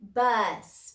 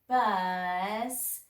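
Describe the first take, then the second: First: The word is said quickly as one unit. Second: The sounds are blended slowly and stretched out. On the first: "Say it fast"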